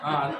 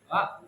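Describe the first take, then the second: First: It is said relaxed with only a slight smile. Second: It is said with a wide, exaggerated smile. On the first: The speaker calls it right. "nyantai dan sedikit aja" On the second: The speaker calls it wrong. "Jangan senyum kali, ... nggak bisa"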